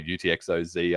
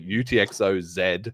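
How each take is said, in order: First: The last letter is said as zee. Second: The last letter is said as zed.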